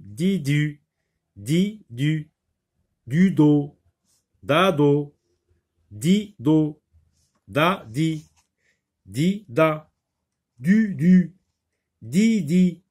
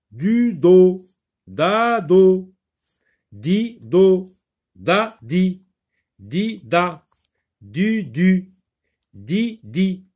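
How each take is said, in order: First: Teacher reading nonsense syllables; reading syllables aloud. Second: Teacher repeating the syllables more loudly; louder repeat of syllables. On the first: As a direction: di du, du do said as clear separate syllables. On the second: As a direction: di du, du do repeated louder and higher, each syllable punched. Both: Shown as a demonstration. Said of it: "on répète, on recommence".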